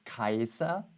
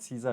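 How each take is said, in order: First: The name begins with a hard k sound. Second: The name begins with a soft s sound. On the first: The speaker calls it right. "it was Kaiser" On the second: The speaker calls it wrong. "Caesar was also not Caesar"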